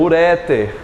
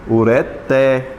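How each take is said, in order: First: The stress is on the middle syllable. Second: The stress is on the last syllable. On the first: The speaker calls it wrong. "também é chamada de como?" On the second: The speaker calls it right. "A mais forte é o té"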